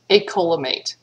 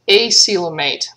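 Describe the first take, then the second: First: The c is pronounced like a k. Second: The c is pronounced like an s. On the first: The speaker calls it wrong. "only in this word we pronounce it like a K" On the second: The speaker calls it right. "if you're pronouncing it like a C, coelom, then it should be acoelomate"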